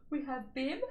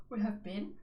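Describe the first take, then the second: First: Higher-pitched, talking through a yawn; words stretched by a stifled yawn. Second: Said in the usual way. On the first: Real, not acted. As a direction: let a real yawn creep into the words. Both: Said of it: "excuse me, yawning".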